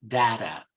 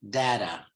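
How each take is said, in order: The two takes are said the same way.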